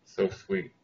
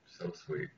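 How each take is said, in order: First: Said in the usual way. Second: Breathy whisper. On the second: Real, not acted. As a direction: whisper it under your breath. Repeated comment, whispered.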